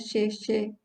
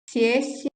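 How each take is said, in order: First: The first consonant sounds like a hushing sh. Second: The first consonant sounds like a hissing s. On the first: "tem som do X mesmo" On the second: "como se fosse um som de S"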